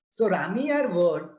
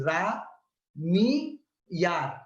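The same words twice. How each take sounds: First: Said in the usual way. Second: Ra, Mi, Yar split into three separate syllables with pauses. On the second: Shown as a demonstration. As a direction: break Ra, Mi, Yar apart for the class. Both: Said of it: "is divided into three syllables".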